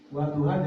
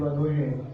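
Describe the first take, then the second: First: The final vowel is an open a sound. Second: The final vowel is tilted toward an e sound.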